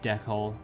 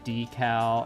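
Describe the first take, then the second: First: The word is said at a normal, casual speed. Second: The word is said slowly and very deliberately. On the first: This is the speaker's habitual pronunciation. "just say it like I usually do" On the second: This is the proper pronunciation. "slow it down and make it like really obvious I'm pronouncing it the proper way"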